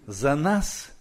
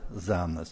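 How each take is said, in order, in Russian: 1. Ударение падает на нас. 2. Ударение снято с нас.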